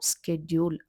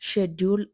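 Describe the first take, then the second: First: The word begins with an 'sk' sound. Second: The word begins with an 'sh' sound. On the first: The speaker calls it right. "దాని correct pronunciation" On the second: The speaker calls it wrong.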